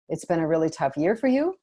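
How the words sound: The voice rises at the end. It is asked as a question. The speaker calls it wrong. "we all would interpret the first one as a question"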